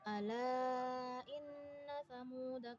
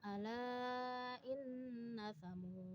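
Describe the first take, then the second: First: The last word ends with a short vowel. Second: The last word ends on a consonant. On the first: "Ketika wasol dibaca" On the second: "Ketika waqaf"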